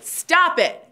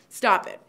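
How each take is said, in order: First: It is said forcefully, with power. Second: It is said mildly, without force.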